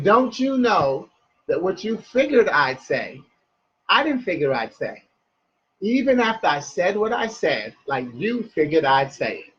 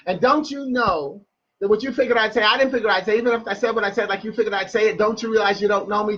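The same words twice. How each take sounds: First: Measured phrases, a pause after each; slowed-down poem line, falling at the close. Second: Quick tumbling poem line, pitched up; fast spoken-word run with no breaks; rapid-fire. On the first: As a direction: lay the riddle out clause by clause. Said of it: "I'll say it in a slow way". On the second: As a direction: race through it like a tongue twister. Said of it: "I always say it that fast". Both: Shown as a demonstration.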